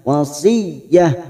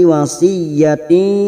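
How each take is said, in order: First: The word ends with a soft h sound. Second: The word ends with a ti sound. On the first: The reciter stops at this word. "karena kita wakaf di sini" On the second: The reciter continues without stopping. "Sekarang kita wasol"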